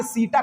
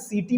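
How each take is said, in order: First: सीटा with a long ee and a clear final aa; seta said as seeta. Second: सीटी with a long ee and a final ee; seta said as seeti. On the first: Teacher giving the term for students, सीटा ending in aa. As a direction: end सीटा on an open aa sound. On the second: Teacher quoting how some students read it, सीटी ending in ee. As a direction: end सीटी on a long ee sound. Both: Shown as a demonstration. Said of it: "कुछ लोग कहते हैं सीटी पढ़ते हैं".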